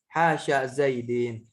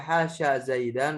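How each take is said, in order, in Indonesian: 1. Kata terakhir berakhir dengan bunyi 'in'. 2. Kata terakhir berakhir dengan bunyi 'an'. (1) "wal jarri"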